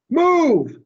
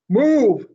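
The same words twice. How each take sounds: First: Much higher, loud angry bark; louder command. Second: High, loud barked order; loud command. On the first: Mac orders the elephant out again, angrier bark. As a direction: lose patience and bark it. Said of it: "he says again". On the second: Mac orders the baby elephant out of the truck, loud command. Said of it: "Mac says". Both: Acted.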